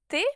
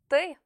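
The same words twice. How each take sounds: First: The T is plain, without tongue retraction. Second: The T is hard, with the tongue pulled back. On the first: "En français, on dit T" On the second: "alors qu'en russe, on dit T"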